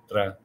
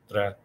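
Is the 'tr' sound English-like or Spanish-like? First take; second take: Spanish-like; Spanish-like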